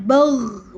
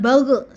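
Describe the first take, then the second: First: The final consonant stops cleanly without a bounce. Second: The final consonant is bounced with an echo. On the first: The speaker calls it right. "bagh bukan bagh" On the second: The speaker calls it wrong.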